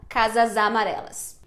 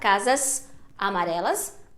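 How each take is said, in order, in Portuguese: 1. As palavras estão ligadas; casas termina em Z. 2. Há uma pausa depois de casas, que termina em S. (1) "Mas se você emendar a palavra" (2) "se você fizer uma pausa, ... vai continuar um som de S"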